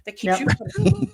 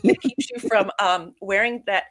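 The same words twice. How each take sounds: First: Put-on high, chirpy valley girl tone. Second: Said in the usual way.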